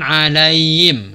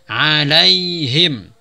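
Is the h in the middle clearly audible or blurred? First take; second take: blurred; clearly audible. First: The h sound is weak and blurred. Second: The h sound is pronounced clearly. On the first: The speaker calls it wrong. "Jangan alaihim" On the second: The speaker calls it right. "Tapi dijelaskan alaihim"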